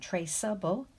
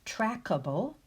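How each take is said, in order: First: The middle consonant sounds like s. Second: The middle consonant sounds like k. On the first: The speaker calls it right. "That's better" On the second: The speaker calls it wrong. "If we were to drop the final E"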